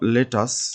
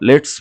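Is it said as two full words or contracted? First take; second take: two words; contracted. First: It is said as two full words. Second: It is said as one contracted word. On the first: "তাহলে আমরা বলবো লেট আস" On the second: "বা আমরা লেটস বলতে পারি"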